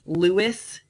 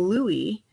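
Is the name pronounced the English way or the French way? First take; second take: English; French. First: It is pronounced with English sound rules. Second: It is pronounced with French sound rules.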